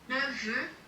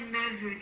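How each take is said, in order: First: The final f stays a plain f sound. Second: The final f is linked as a v sound.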